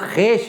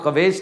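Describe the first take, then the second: First: No w sound is heard after the kh. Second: A w sound is heard after the kh. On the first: The speaker calls it right. "वो खेश है। वाव silent है इसमें।" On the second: The speaker calls it wrong. "वो खवेश नहीं है"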